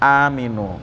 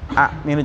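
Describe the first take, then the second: First: The first vowel is lengthened with no stop. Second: A glottal stop follows the first short vowel. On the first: This is the form actually read. "jadi aminu" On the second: This is the underlying original form. "asalnya itu hamzahnya dua"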